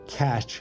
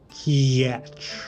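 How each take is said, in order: First: It is said in a plain English accent. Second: It is said in a Slavic accent. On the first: The speaker calls it wrong. "It's not catch" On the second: The speaker calls it right. "it's catch"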